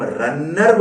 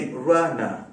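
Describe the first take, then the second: First: रनर said quickly with a doubled, stressed n and sounded final r; wrong, local pronunciation. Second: रनर said slowly as "ra-na", single n, silent final r; correct pronunciation. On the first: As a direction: make the n in रनर heavy, like "ran-ner". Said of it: "हम रनर बोलते हैं, नहीं". (रनर में न पर ज़ोर, "रन्नर" जैसा) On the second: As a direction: let रनर flow into a light n, dropping the last r. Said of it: "नहीं, रनर". (रनर को धीरे से "र-ना" जैसा) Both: Shown as a demonstration.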